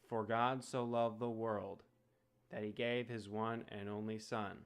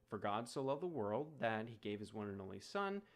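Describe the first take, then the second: First: It is said in a flat, robotic monotone. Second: It is said with natural, varied intonation.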